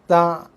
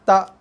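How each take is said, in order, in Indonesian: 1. Bunyinya diakhiri dengan bunyi ain yang berat di tenggorokan. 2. Bunyinya diakhiri dengan hamzah yang tegas dan padat. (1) "Ha, itu bunyi ain. Ha, salah sama sekali lah" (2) "kita bunyikan dia dengan bunyi hamzah solid"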